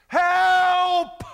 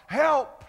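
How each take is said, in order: First: Desperate high shout for help; cry for help. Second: Loud, high plea for help; pleading cry. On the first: Preacher reenacting his own prayer, a desperate shouted cry. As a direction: cry out to God with one word, full voice. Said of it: "I've called out to God that way". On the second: Preacher repeating his prayer to God as a loud plea. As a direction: cry it from the heart. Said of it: "One word with a plea and a cry from the heart". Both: Retold or imitated.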